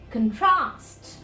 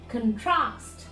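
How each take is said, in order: Both takes have the same delivery.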